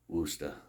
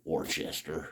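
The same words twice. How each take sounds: First: It is pronounced the way locals say it. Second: It is pronounced the speaker's own non-local way. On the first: It gives in to how residents say the name. "There, I said it. You happy?" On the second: It is how an outsider insists on saying it. "That's what I will always say"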